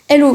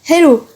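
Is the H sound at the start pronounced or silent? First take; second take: silent; pronounced. First: The initial H sound is dropped and silent. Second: The initial H sound is clearly pronounced.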